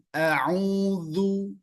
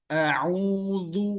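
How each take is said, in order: No difference in how they are said.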